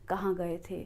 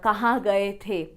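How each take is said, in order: First: It is said with only a slight mouth opening. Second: It is said with an exaggerated wide mouth opening. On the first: "हम मुँह को बहुत छोटा open करके भी अपनी बात को कह सकते हैं" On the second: "हमें ऐसे नहीं बोलना पड़ता"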